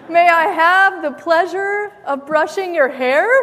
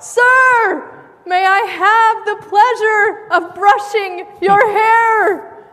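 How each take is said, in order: First: It is said quietly. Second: It is said loudly, blurted out.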